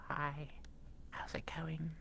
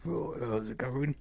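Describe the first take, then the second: First: It is said softly and gently. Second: It is said loudly and harshly.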